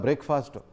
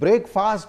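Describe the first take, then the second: First: The word is said as one unit. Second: The word is split with a break. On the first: It means the morning meal. "ಈ ಜೋಡಿ ಪದ" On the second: It means break apart quickly. "ಪ್ರತ್ಯೇಕವಾಗಿ ನೀವು ಉಚ್ಚಾರಣೆ ಮಾಡಿದ್ರೆ"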